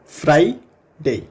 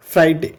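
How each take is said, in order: First: फ्राइडे drawn out slowly so the आई glide is heard; slow demo of Friday. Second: Said in the usual way. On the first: Shown as a demonstration. Teacher slowly sounding फ्राइडे for students. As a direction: stretch फ्राइडे to show the diphthong. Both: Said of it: "sound अब आपके समझ में".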